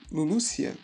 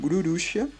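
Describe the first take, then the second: First: The name is said with L sounds. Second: The name is said with R sounds. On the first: "a questão de Lulucia" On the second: "mais puxado para um R. Então a gente fica com Ururucia"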